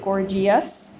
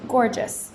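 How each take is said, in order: First: The E is sounded as an extra syllable. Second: The E is silent, ending in 'jus'. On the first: The speaker calls it wrong. "We don't pronounce it" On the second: The speaker calls it right. "we pronounce it"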